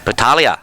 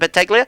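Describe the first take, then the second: First: The G sound is left silent. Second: The G sound is clearly pronounced. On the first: The speaker calls it right. "Spot on" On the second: The speaker calls it wrong. "we don't pronounce the G"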